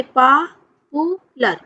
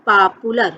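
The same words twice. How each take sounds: First: पॉपुलर slowly split as पा, पू, लर; syllable by syllable. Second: Said in the usual way. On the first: Shown as a demonstration. Teacher showing students three syllables, पॉपुलर syllable by syllable. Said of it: "आप खुद देखिए इसका pronunciation करके". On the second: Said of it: "इसका pronunciation करके".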